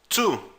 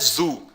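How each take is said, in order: First: The word begins with a voiceless ts sound. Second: The word begins with a voiced z sound. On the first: The speaker calls it right. "é tu" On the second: The speaker calls it wrong. "não é zu"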